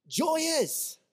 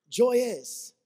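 First: Much higher, bright and delighted; joyful burst. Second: Said in the usual way. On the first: Shown as a demonstration. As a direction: sing out the word joy like it delights you. Contrasting joy with seriousness.

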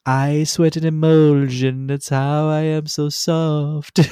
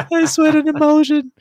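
First: High, slow, relishing mock recital; quoting the best line. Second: Very high, loud squeal through laughter; squealed repeat. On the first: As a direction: savour each word, high and slow. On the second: Retold or imitated. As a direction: squeak it out in delight. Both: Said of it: "the best line out of the whole song".

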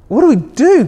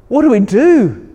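First: Higher and louder hammed-up panic; the dad panics even harder on the repeat; over-the-top fretful father, voice climbing; mock panic rising. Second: Mock panic. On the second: Dad panicking in story.

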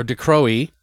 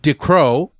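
First: Decroix said as "de-CROW-ee"; alternative French pronunciation. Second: Decroix said as "dee-CROW"; tentative French name. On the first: Host offers another guess at the French name, Decroix as "de-crow-ee". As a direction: add an "ee" after "crow" in Decroix. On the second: Host guesses at a French actor's name, Decroix as "dee-crow". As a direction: end Decroix on a plain "crow" sound. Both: Shown as a demonstration. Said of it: "don't know how to say it".

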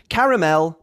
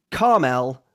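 First: Caramel in three syllables, ca-ra-mel; British caramel. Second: Carmel squeezed into two syllables, car-mel; American carmel. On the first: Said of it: "the first version is correct". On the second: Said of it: "the second version is American". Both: Shown as a demonstration.

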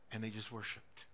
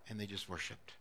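Both takes have the same delivery.

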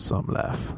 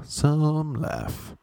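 First: Said in the usual way. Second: "Some" stretched and pitched high; drawn-out emphasis. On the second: Real, not acted. Comic repeats his remark on West Hollywood, stretching "Some". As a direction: lean long and high on "Some".

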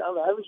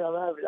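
First: Average rising in disbelief; I'm average? asked with a doubting rise on average; incredulous question. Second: Said in the usual way. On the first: Shown as a demonstration. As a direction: ask it as if the idea were absurd. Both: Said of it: "Are you crazy?".

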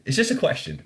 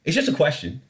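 First: Much higher mock-innocent "It's just a question.". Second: Said in the usual way. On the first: Shown as a demonstration. Host repeating his question to listeners, mock innocent and high. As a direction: lift the whole of "It's just a question." up high, faux naive. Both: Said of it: "repeated with higher pitch".

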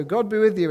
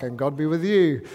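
First: Louder, higher call to the class; pupil's loud blessing. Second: Louder chorus answer in a changed voice; class shouting back. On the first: Pupil stands in class, loud blessing. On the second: Classmates answer the pupil, chorus reply. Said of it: "everyone shouts back". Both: Pretend.

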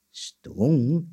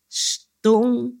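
First: "Stong" asked with a questioning rise; puzzled question. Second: "stong" high and drawn out; insistent prompt. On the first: Puzzled cricket echoes "Stong", rising question. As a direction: echo "Stong" at normal pitch, rising at the end. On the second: Anansi prompts the cricket with "stong", high insistent prompt. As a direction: stretch "stong" on a high, held pitch. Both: A narrator's reading.

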